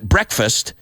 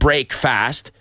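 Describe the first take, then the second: First: It is said as one joined word. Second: It is said as two separate words. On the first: The speaker calls it right. "We pronounce it breakfast" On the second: The speaker calls it wrong. "We don't pronounce it break fast"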